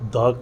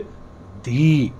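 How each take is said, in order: First: The word ends in a short 'uh' vowel. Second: The word ends in a long 'ee' vowel. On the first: The next word begins with a consonant sound. "इसको द pronunciate करेंगे" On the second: The next word begins with a vowel sound. "इसको हम pronunciate करेंगे दी"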